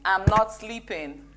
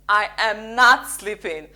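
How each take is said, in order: First: It sounds casual and matter-of-fact. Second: It sounds strong and emphatic.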